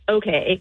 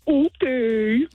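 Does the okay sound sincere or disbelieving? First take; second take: sincere; disbelieving. First: It is said plainly, accepting the statement. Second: It is said in a mocking, disbelieving voice.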